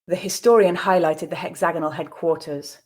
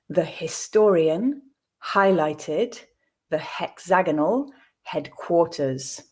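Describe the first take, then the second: First: It is spoken at a natural pace. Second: It is spoken at a slow pace. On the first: "then twice at a more natural pace" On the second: "I'll read it the first time slowly"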